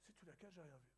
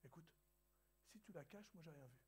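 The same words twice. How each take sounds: First: Said in the usual way. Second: Hushed, low-volume confidential aside; spoken softly. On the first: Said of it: "Tu vois?". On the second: Retold or imitated. Waiter quietly tells the pastor to hide the cup, hushed. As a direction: keep it down like a waiter sharing a secret. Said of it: "il parlait pas très fort".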